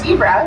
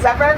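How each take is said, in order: First: The word is pronounced the United States way. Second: The word is pronounced the Afrikaans way. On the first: The speaker calls it wrong. "here in the United States, we're the only country that says zebra" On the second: The speaker calls it right. "I'm pronouncing it as zebra because it's Afrikaans"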